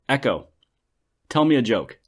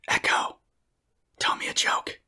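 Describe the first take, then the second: First: It is said in a normal speaking voice. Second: It is said in a whisper. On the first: "I'm going to go with a normal voiced" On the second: "I'm going to whisper"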